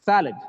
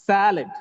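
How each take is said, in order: No difference in how they are said.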